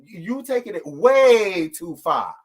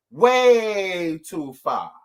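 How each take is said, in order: First: You taking it way too far, drawn out slowly with weight on way; stress on way too far. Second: Way too far, each word stretched very slowly; slow emphatic echo. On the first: To the chat, drawn-out scolding stress on way too far. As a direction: lay it on slow and heavy, way too far. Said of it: "emphatic repeat of phrase". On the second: Repeating herself to commenters, very slow emphatic echo. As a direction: drag out way too far like a final verdict. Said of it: "echo, even slower". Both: Real, not acted.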